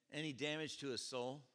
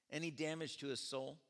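No difference in how they are said.

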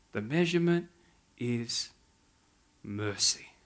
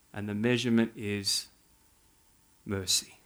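First: Measurement, then pause, is, pause, soft mercy; pauses before mercy. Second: Soft. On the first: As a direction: let each word land with long pauses. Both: Shown as a demonstration.

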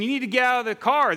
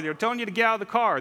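First: Raised and quick, higher voice; mock crowd yell. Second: Said in the usual way. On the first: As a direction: shout it like the crowd at the fence. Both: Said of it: "They're yelling at the guy in the truck".

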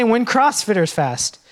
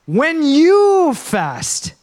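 First: When CrossFitters fast, spoken lightly and quickly; wrong version. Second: When you fast, very slow, high and louder, you leaned on hard; drawn-out stress on YOU. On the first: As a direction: toss off the wrong line. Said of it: "He doesn't s-, even say". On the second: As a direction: stretch every word, punch you. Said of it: "He says". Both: Shown as a demonstration.

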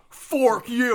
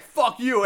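First: "fork" drawn out slowly for the pun; stress on FORK. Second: Said in the usual way. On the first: Retold or imitated. Gnome answers the bald guy with a pun, stretched "fork". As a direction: lean long and hard on "fork". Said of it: "and then Norm goes". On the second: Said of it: "the bald guy's like".

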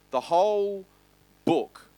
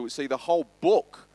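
First: "the whole" lifted high, pause, then "book" landed firmly; slow emphatic restatement. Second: Said in the usual way. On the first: Shown as a demonstration. Preacher stresses the whole Bible to the church, pausing before book. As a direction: hold a beat after "whole" before you land "book".

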